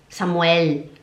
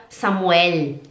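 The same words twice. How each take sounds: The two takes are said the same way.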